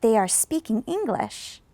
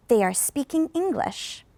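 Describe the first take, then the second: First: Second take, "English" up then down; rise-fall on English. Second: "English" lifts a little then falls; rise-fall on English. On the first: Teacher repeating model for class, rise-fall on English. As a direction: repeat "They are speaking English." with "English" rising then dropping. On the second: Teacher to class, rise-fall on English. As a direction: model "They are speaking English." with a rise then fall on "English". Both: Shown as a demonstration. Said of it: "go up and down as well".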